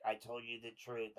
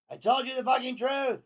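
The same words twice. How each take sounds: First: Said in the usual way. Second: Much higher and louder, screaming the words; shouted desperate text. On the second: Acted. Host reading JD's exclamation-point text as a high desperate scream. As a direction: yell it like a desperate ex begging. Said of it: "Exclamation point".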